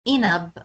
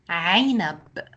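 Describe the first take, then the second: First: It begins with a plain vowel sound. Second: It begins with a throaty ain sound. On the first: The speaker calls it wrong. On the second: The speaker calls it right.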